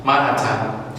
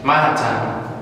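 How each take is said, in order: First: The middle t is pronounced heavy and strong. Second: The same.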